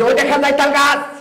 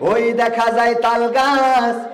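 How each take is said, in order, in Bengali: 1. এটি একজন জনসভার বক্তার ঢঙে আবৃত্তি করা হচ্ছে। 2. এটি একজন ধর্মপ্রচারকের ঢঙে আবৃত্তি করা হচ্ছে। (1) "জনসভার নেতা ঠিক এইভাবে বলবে" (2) "বক্তা যারা ওয়াজ করে, তারা কিভাবে বলবে"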